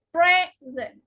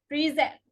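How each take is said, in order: First: PRESent, first syllable stressed and drawn out. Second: PreSENT, weight on the second syllable; stress on second syllable. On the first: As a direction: say present as the noun, PRES-ent. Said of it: "verb form is usually stressed on the second". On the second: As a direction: say present as the verb, pre-ZENT. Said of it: "stressed on the second syllable". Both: Shown as a demonstration.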